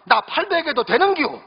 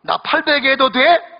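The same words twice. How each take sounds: First: Higher-pitched Gyeongsang dialect bride, 되는겨 drawn up; country bride asking in Gyeongsang dialect. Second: Higher, slow, sweet Seoul bride; new bride sweetly asking her husband, Seoul manner. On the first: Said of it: "경상도 신부가 또 말합니다". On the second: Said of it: "서울 신부가 신랑에게 얘기합니다". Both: Retold or imitated.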